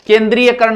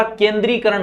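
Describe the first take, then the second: First: केंद्रीयकरण with an extra ya after री; wrong form केंद्रीयकरण. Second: केंद्रीकरण softer, with no ya after री; correct form केंद्रीकरण. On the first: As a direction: put a य sound inside केंद्रीयकरण. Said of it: "नहीं होता". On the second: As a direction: run री straight into करण in केंद्रीकरण. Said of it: "केंद्रीयकरण नहीं होता". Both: Shown as a demonstration.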